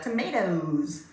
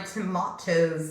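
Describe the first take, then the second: First: It is said in a Canadian way. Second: It is said in a non-Canadian way.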